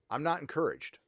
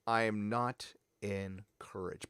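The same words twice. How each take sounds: First: Said in the usual way. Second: "I am not encouraged" softer, lower, word by word; slow emphatic repeat. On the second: Real, not acted. Vlogger repeating doubts about the show, slow, low emphasis on "not encouraged". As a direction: space out "not" and "encouraged" slowly and quietly.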